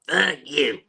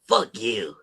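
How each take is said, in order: First: It is said in a put-on cartoon character voice. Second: It is said in the speaker's ordinary voice.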